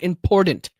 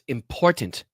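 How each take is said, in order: First: The middle consonant sounds like a D. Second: The middle consonant is a clear T sound. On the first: The speaker calls it wrong. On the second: The speaker calls it right.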